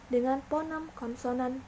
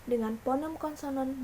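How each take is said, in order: The two takes are said the same way.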